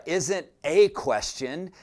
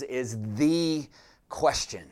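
First: "a" said as a long, stressed "ay"; emphatic "a" as in "day", before the noun. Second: "the" said as "thee", stretched, then a pause; emphatic "thee", a beat, then the noun dropping; stress on THE. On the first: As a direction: lean on "a", pronounced "ay", to set up a contrast. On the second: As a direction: lean on "the" as "thee" and hold off the noun. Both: Real, not acted. Contrasts one question with the question.

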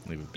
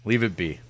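First: Quiet. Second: Said in the usual way. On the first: Shown as a demonstration. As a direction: Leave it be dropped soft and low. Repeats phrase, then fades it.

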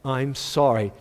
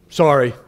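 First: Low, reluctant acted apology; insincere apology. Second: Acted curt, begrudging sorry; grudging apology. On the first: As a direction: force out a nicer sorry without meaning it. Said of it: "say it like you mean it". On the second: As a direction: toss out a sorry you don't mean. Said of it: "say it nice".

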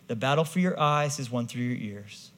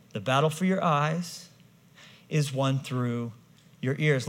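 First: Said in the usual way. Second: "The battle for your eyes" then a pause, "is won through" slowed, then "your ears" landed with a falling tune. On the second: Shown as a demonstration. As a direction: break it into slow phrases with pauses before "your ears". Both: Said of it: "Listen to me carefully".

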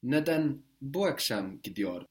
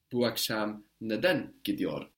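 First: Bu akşam picked out before the verb; stress on bu akşam. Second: Neden emphasized, right before the verb; stress on neden. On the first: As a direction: put the emphasis on bu akşam. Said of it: "Why is it tonight that she's going?". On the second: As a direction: put the weight on neden. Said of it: "we emphasize the neden". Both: Shown as a demonstration.

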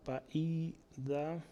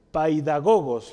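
First: Paidagogos drawn out very slowly and much softer; dictated while writing. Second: Paidagogos said clearly, stressed on the last syllable; Greek word pronounced. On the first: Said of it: "Lo voy a escribir aquí". (paidagogos dictado despacio y en voz baja) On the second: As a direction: present the Greek word paidagogos firmly to the class. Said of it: "Una palabra en griego que dice". (pronunciación clara de paidagogos) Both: Shown as a demonstration.

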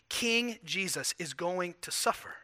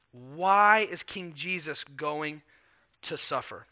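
First: Said in the usual way. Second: Slow, weighty question. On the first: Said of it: "first asking". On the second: Shown as a demonstration. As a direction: draw out each word. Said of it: "emphatic restated question".

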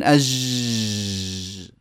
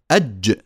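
First: "أج" drawn out as a long, soft zhhh; imitated student error, very long low "azhhh"; wrong lax jeem. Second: "أج" ending in a short, blocked dj; brief "أج" with a firm closure and small release; strong, trapped jeem. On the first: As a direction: let the jeem of "أج" leak into a sustained buzz. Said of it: "هذا الصوت غير صحيح". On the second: Shown as a demonstration. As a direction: stop the jeem of "أج" with no running zh. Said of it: "هذا هو صوت الجيم الصحيح".

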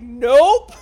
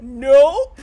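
First: Loud, far-off blurted nope; mock nope. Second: Loud blurted nope; mock nope. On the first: Podcaster imitating Izzy refusing, loud blurted nope. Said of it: "Izzy's like". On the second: Host replaying Izzy's line she loves, loud blurted nope. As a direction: bark out the refusal. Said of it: "I love the way she says it".

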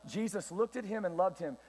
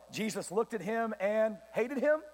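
First: Said in the usual way. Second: Slow build to "hated him" with a questioning rise; deliberately wrong, questioning. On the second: Shown as a demonstration. Preacher testing listeners with a misquote, "hated him" rising questioningly. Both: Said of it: "What'd he say?".

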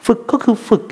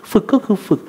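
Both takes have the same delivery.

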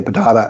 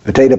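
First: Potato said "po-TAH-to"; potato pronounced the "TAH" way. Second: Potato said "po-TAY-to"; Potato pronounced the "TAY" way. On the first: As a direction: say potato with an "ah" in the middle. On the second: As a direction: say Potato with an "ay" in the middle. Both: Shown as a demonstration. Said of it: "Is it Antifa or Antifa?".

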